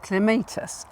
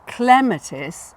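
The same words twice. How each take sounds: First: "clematis" with the stress on MAY; cle-MAY-tis stressed second. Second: "clematis" stressed on CLEM; CLEM-atis stressed first. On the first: Gardener naming the common "clematis": stress on MAY. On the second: Gardener asking why not the first-syllable "clematis". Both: Shown as a demonstration. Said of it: "A lot of people say clematis".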